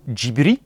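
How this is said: It is said with a clipped Japanese accent. "à la japonaise avec l'accent tout claqué"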